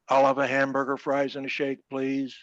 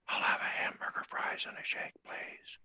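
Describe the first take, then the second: First: It is said in a regular voice. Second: It is said in a whisper.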